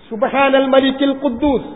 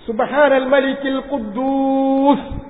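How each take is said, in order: First: The phrase is said at normal length. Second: The phrase is drawn out and lengthened.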